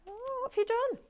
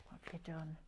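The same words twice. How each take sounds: First: Very high-pitched, drawn-in mock alarm; playful mock scolding. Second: Much softer, back down in pitch; hushed teasing question. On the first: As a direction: squeak it as a teasing question. Teasing a viewer about mischief. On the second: Pretend. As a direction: ask it low and quiet, as an aside. Repeats the teasing question low.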